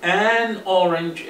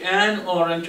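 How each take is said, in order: First: "An orange" with An stretched slow; slow, stretch the "An" before orange; an drawn out. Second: Said in the usual way. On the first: Shown as a demonstration. Teacher stretching "An" before orange for the class. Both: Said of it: "orange تبدأ بحرف علة".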